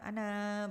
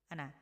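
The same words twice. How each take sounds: First: The final vowel is drawn out long. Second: The final vowel is kept short. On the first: The speaker calls it wrong. "bukan ana, bukan seperti itu" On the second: The speaker calls it right. "ana di sini tidak panjang ya"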